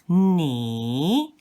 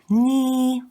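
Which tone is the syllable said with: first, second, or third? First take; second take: third; first. First: The pitch dips down and then rises again. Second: The pitch stays high and level. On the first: "The third one is the same as you see here. So it's ni" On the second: "ni will be pronounced with the first accent. It will be ni"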